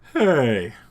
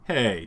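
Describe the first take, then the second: First: It is said as Kronk, breathy H, changed lilt. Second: It is said in his normal voice.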